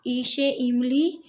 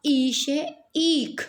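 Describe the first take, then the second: First: ई से इमली with a quick short इ; ह्रस्व इ जल्दी से बोलें. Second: ई से ईख with a slow, drawn-out ई; दीर्घ ई को खींचकर बोलें; long ई. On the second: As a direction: hold the ई in ईख twice as long. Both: Shown as a demonstration. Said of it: "इन दोनों के उच्चारण में ही भेद है".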